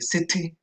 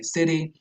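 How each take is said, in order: First: The middle t is a clear t sound. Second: The middle t is a quick flap. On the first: "how the British tend to say city" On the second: "the U S speakers might say city"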